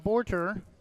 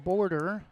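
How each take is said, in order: First: The middle consonant is a clear T. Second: The middle consonant sounds like a D. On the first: The speaker calls it right. "Got to make sure I pronounce the T" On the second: The speaker calls it wrong. "not call him Border"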